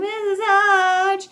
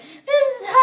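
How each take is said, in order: First: The voice goes down at the end, whining. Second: The voice goes up at the end.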